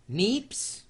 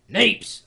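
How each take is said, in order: First: "Neeps?" said higher, rising, unsure; tentative pronunciation. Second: "neeps!" said higher and louder, with an exaggerated Scottish vowel; bold mock Scottish. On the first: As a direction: ask "Neeps?" with a lifting tune. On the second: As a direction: belt out "neeps!" like a Scot. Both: Shown as a demonstration. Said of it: "Are you supposed to say it with a".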